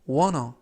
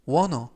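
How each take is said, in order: First: The words are blended together into one. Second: The words are blended together into one.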